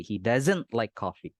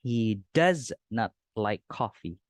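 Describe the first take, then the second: First: "doesn't" contracted and run together into "like coffee"; linked casual speech. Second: He does not like coffee, each word said apart, slowly; slow full form. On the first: Teacher shows the joined spoken form to students. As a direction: blend "he doesn't like coffee" smoothly. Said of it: "bisa disambung". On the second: Teacher shows the full form slowly to the class. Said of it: "Atau secara berbicara, bisa disambung". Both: Shown as a demonstration.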